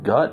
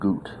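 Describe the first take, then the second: First: It is said with an English vowel. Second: It is said with a German vowel.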